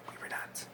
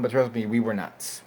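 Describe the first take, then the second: First: Breathy whisper, hardly voiced; whispered aside. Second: Said in the usual way. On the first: Shown as a demonstration. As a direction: whisper it to yourself. Repeats the phrase as an aside.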